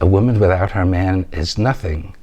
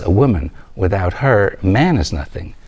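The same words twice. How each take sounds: First: It is spoken straight through without any pauses. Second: It has pauses after woman and after man. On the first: A woman is nothing without her man. The speaker calls it wrong. "You said" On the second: Without a woman, man is nothing. The speaker calls it right. "after woman there's a dash, ... And after man there's a comma"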